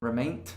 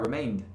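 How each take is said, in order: First: The word ends with a voiceless t sound. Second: The word ends with a voiced d sound. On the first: The speaker calls it wrong. "para falar aquele t, eu tenho que parar aquela vibração" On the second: The speaker calls it right. "é mais fácil para só continuar"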